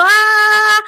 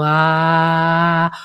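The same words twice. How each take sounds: First: A high, loud, strained "Ah"; shrill tense ah. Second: Heart-centred ah. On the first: Voice coach demonstrating the useless strained vowel, high and loud. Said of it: "tengo la voz así". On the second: Voice coach demonstrating the heart chakra vowel, lower. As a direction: let a calm "Ah" drop into the chest. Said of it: "una A realmente de corazón". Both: Shown as a demonstration.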